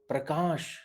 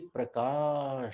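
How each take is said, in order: First: The name is said short and quick. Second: The name is drawn out to double length. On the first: "एक हर्ष यानी" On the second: "एक दीर्घ यानी इसको दुगनी आयाम में ले जाना है"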